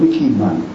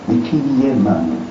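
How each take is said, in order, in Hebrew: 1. המילה נאמרת עם תנועה רשלנית וקצרה. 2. המילה נאמרת עם תנועות מלאות וזהירות.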